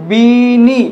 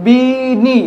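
First: বিনি with a clear long i, said louder; বিনি said slowly with a long i; ee vowel demo. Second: বিনি again with a clear long i, said slowly; বিনি with each syllable clear; ee vowel demo. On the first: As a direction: sound out বিনি for students. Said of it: "এটির উচ্চারণ". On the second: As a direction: repeat বিনি for students to follow. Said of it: "এই উচ্চারণ প্রণালীটা আবার ভালোভাবে দেখুন". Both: Shown as a demonstration.

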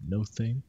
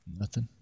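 First: "No thing" said as two separate words; No thing split. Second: Said in the usual way. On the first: Shown as a demonstration. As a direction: stress "No" then "thing", pulled apart.

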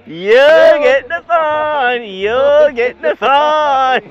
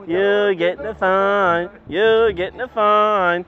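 First: Drawn-out, louder, higher mocking chant; slow teasing victory chant at the driver; gloating sing-song. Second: Said in the usual way. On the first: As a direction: rub it in slowly, singing it at him.

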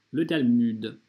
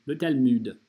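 Both takes have the same delivery.

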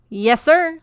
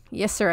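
First: Put-on much higher and louder scraping boy's voice; sandpaper screech. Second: Said in the usual way. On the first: A narrator's reading. Peach answering Mister Johnson in his sandpaper screech. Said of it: "sandpaper screech".

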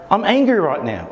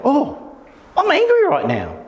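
First: Said in the usual way. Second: Noticing, light realisation. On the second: Shown as a demonstration. Teacher showing how a mindful person notices anger, lifted high. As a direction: jump high on Oh, high gentle noticing. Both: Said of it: "It's about".

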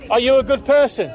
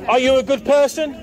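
Both takes have the same delivery.

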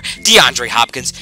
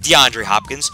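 First: Drawn-out slow DeAndre Hopkins; savoring the name; slow emphatic name. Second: Said in the usual way. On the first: Real, not acted. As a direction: spell the answer out slowly. Name answered twice.

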